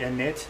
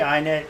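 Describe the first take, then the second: First: The first syllable sounds like 'in'. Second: The first syllable sounds like 'eye'. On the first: The speaker calls it right. "most people say init" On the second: The speaker calls it wrong. "I say init, for some reason I always pronounce it wrong"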